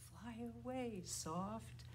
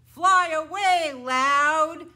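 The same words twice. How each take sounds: First: Hushed, gentle call; soft. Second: High, booming call; loud. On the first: Teacher sending the bird named Soft away, softly. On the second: Teacher sending the bird named Loud away, loudly. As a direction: shout it out big. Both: Shown as a demonstration.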